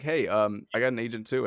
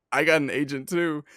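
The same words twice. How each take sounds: First: Tentative and unsure, with a hesitation before it; the nervous nineteen-year-old fan, hesitant. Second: Mock boastful agent line; overeager boast. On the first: Retold or imitated. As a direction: say it shyly, testing the waters. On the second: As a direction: blurt it out a bit louder, proud and pushy. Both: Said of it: "I didn't say it just like that".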